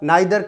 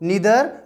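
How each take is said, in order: First: The first vowel sounds like 'eye'. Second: The first vowel sounds like 'ee'. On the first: This is the other form, also acceptable. "यदि आप नाइदर करते हो then also that is correct" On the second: This is the British English form. "British English है वो use में लेते हैं, तो इसको नीदर प्रोनाउंसिएशन करना है"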